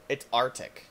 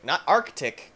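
First: "Arctic" as AR-tik, no k before the t; Arctic without first C. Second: "Arctic" with the k sounded before the t; Arctic with first C. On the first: Player reading out the level name, "Arctic" as AR-tik. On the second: Player rejecting a reading of the level name, "Arctic" as ARK-tik. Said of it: "It's Arctic". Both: Shown as a demonstration.

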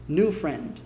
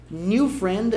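First: 'new friend', the first vowel near a pure oo; correct near-'noo' vowel. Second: Slow 'New friend', drawn out as nee-oo friend; Brazilian-style 'niu'. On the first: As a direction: keep 'new' close to noo in 'new friend'. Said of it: "mais próximo de nu do que de new". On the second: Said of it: "soa bem brasileirado". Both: Shown as a demonstration.

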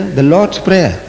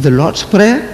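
First: Said in the usual way. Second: Higher, rising disbelief on "Prayer"; questioning surprise. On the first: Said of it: "It says here". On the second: Retold or imitated. Speaker puzzles over the sticker in the hotel, questioning surprise. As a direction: query "The Lord's Prayer" with a rising end. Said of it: "I said".

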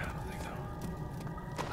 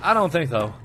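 First: Unvoiced whisper; soft whisper. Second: Said in the usual way. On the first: Shown as a demonstration. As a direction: whisper it under breath. Whispered vs plain repeat.

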